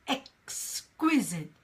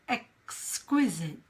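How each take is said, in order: The two takes are said the same way.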